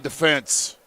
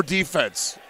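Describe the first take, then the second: First: Defense said as de-FENSE; stress on second syllable. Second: Defense said as DEE-fense; stress on first syllable. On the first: Commentator praising the team's effort, defense stressed on FENSE. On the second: Commentator offering the other pronunciation, defense stressed on DEE. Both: Shown as a demonstration. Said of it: "however you want to say it".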